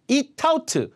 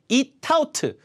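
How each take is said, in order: No difference in how they are said.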